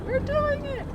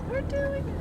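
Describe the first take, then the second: First: High, thrilled cry; excited. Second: High but quieter thrill; excited, softer. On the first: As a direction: squeal it with glee. Driving through the water crossing. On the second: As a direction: say it again under your breath. Repeats while crossing water. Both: Real, not acted.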